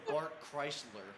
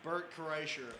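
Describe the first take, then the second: First: The surname sounds like Chrysler. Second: The surname sounds like Kreischer. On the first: This is how some people get the name wrong. "or as some people say" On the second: This is the name as it really is. "It's Burt Kreischer"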